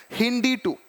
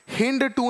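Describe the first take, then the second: First: हिंदी टू with the full "ee" at the end of हिंदी; right pronunciation. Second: हिंद टू with the final "ee" of हिंदी dropped; wrong pronunciation. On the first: Teacher corrects students, giving हिंदी टू with its full "ee". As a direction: say हिंदी टू properly, the "ee" clearly sounded. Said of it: "ऐसे पढ़ेंगे हिंदी टू". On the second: Teacher shows students the wrong reading, हिंद टू clipped short. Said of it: "हिंद टू नहीं पढ़ते हैं". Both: Shown as a demonstration.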